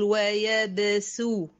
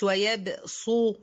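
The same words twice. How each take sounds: First: "ويبسو" with a thin, light s sound; pronounced with seen. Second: "ويبسو" with a heavy, thick saad for the s; wrongly pronounced with saad. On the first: Teacher showing the word read with seen, "ويبسو" with light s. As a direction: say "ويبسو" with a clear seen, never a heavy saad. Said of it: "هنطق سين". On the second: Teacher showing the mistake to avoid, "ويبسو" with heavy saad. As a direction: darken the s of "ويبسو" into an emphatic saad. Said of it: "مش ويبسو، لأ". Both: Shown as a demonstration.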